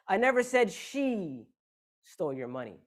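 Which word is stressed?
she. The stress is on "she".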